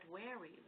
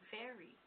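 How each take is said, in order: First: The word begins with a w sound. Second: The word begins with a v sound. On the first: "he was pronouncing the V's as W's" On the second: "he's saying very"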